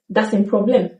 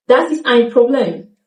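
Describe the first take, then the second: First: Ist cut to s in Das ein Problem; reduced form. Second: Ist said in full in Das ist ein Problem; careful Das ist ein Problem; full form. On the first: Teacher shows the spoken sentence. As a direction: quieter casual sentence. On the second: Teacher gives the full sentence. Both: Shown as a demonstration. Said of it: "ist gets reduced to S".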